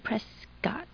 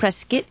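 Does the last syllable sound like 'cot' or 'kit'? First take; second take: cot; kit. First: The last syllable has a full 'cot' vowel. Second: The last syllable is reduced, like 'kit'. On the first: The speaker calls it right. "Because it's C-O-T" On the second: The speaker calls it wrong. "it'd be it, I-T"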